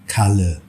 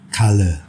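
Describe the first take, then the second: The two takes are said the same way.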